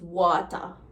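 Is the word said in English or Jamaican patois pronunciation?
Jamaican patois. The ending is pronounced as an ah-sound. "becomes water"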